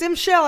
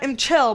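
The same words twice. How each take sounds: First: "M Shell" with sh, as in shoe; pronounced with SH. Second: "M Chell" with a hard ch sound; "M Chell" with ch, as in chair; pronounced with CH. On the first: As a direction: say "M Shell", starting Shell like "she". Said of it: "I feel like it's M Shell and not M Chell". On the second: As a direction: say "M Chell", starting Chell like "check". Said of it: "not M Chell". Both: Shown as a demonstration.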